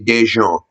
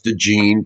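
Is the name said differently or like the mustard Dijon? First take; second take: like Dijon; differently. First: The name is said like the mustard word. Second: The name is said unlike the mustard word. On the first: This is how people from the South say it. "just like the mustard" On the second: This is how the name is meant to be said. "I know it's DeJean"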